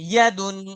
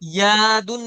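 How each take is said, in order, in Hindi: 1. पहला स्वर छोटा रखा गया है। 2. पहला स्वर लंबा खींचा गया है। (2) "यादुन नहीं"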